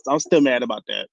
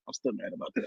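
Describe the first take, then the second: First: Said in the usual way. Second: Much softer, muttered repeat; quiet repeat. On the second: Real, not acted. Friend mutters her grudge again to cohost. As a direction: drop to a sulky under-breath.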